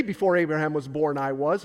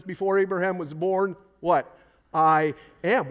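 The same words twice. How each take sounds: First: Said in the usual way. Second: I am punched louder after a pause; stress on I AM. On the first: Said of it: "But he doesn't say". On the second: Shown as a demonstration. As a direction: hit I am hard after the question what. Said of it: "He says".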